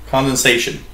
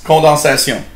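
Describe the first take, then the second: First: Said in the usual way. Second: "condensation" said the French way; French "condensation", ending in "syon" instead of "shun"; French pronunciation. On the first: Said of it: "Just pronounced differently". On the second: Shown as a demonstration. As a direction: say "condensation" in French, nasal vowels and final "syon". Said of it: "Uh, in French".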